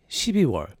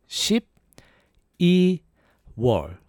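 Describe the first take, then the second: First: It is said fast. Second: It is said slowly.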